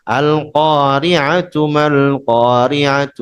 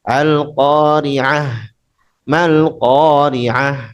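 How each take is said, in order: First: Each qari'ah ends in a voiced 'atu' sound. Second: Each qari'ah ends in a plain h sound. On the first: The reader joins the word to the next one. "Kalau wasal" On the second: The reader stops after the word. "Dia harus diganti dengan tak eh dengan ha murni ha ya"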